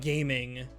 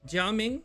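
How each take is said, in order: First: The name is read like the English word gaming. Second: The name is read with a Mandarin pronunciation. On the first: The speaker calls it wrong. "it's not gaming" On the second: The speaker calls it right. "Jia Ming in Mandarin"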